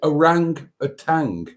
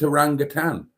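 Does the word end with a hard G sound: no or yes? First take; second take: yes; no. First: The word ends with a hard G sound. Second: The word ends without any G sound. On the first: The speaker calls it wrong. "in my mind, my crazy, mixed up, pickled in alcohol mind" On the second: The speaker calls it right. "There's no final G"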